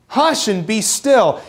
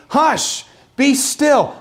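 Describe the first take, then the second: First: Slow, drawn-out parental shush; talking to a toddler. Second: Put-on high, firm shushing to a child; like to a toddler. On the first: Shown as a demonstration. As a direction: ease the toddler down, slowly. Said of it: "the way you would talk to a toddler who needs to shush". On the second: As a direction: hush it like calming a fussy toddler. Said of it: "Almost like you would talk to a toddler".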